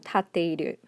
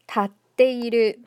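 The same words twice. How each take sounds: First: There is no stop before the t. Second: There is a brief stop before the t. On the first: The speaker calls it wrong. "instead of" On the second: The speaker calls it right. "there's a little bit of a stop there"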